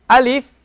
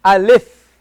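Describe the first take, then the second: First: Alif with an open a and a clear ee; alif, open a, then ee; correct alif. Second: Alif with a lax eh in the second syllable; the mispronounced alif; wrong alif. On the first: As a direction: say alif the Arabic way. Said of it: "we pronounce it as alif". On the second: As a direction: alif said like English lif. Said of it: "and not". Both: Shown as a demonstration.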